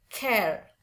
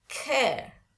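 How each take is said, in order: First: "care" with the final R sounded; the non-British "care", R pronounced; American "care". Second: "care" higher, falling, no final R; British demo of "care", R dropped. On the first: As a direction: close "care" on an audible R. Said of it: "bukan care". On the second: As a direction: end "care" on the open vowel. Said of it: "Kalau British lebih seneng pakai". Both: Shown as a demonstration.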